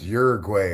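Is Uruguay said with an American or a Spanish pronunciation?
American. It is said with an American English pronunciation. The speaker calls it wrong. "it's not even pronounced Uruguay"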